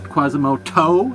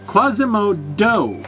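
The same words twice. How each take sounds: First: The last syllable starts with a T sound. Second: The last syllable starts with a D sound. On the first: "as in toenail" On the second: "M O D O"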